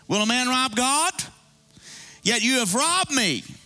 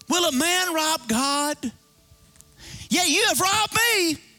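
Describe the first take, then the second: First: It is read calmly, without strong force. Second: It is said forcefully, like an exclamation.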